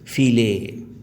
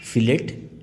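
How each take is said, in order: First: The final T sound is left silent. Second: The final T sound is clearly pronounced. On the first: "as the Calcuttans say" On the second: "she pronounced the word fillet as fillet"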